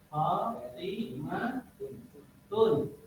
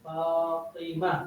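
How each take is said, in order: First: The word ends with a full tun ending. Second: The word ends with a soft h sound. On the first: The word continues into following speech. "ketika dibunyikan" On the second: The speaker stops at the end of the word. "Kalau dimatikan harakat akhirnya yang tun itu, maka dia berubah suara menjadi ha"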